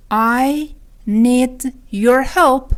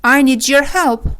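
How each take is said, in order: First: Very slow, every word separate. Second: Said in the usual way. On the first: Shown as a demonstration. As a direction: leave gaps in "I ... need ... your help". Lesson repeats it word by word. (خیلی شمرده، کلمه به کلمه)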